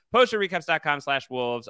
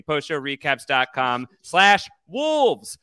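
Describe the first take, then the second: First: Said in the usual way. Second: Slow and louder, every word spelled out; slow clear URL. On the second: Shown as a demonstration. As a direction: read the address slowly and clearly. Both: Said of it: "Just kidding".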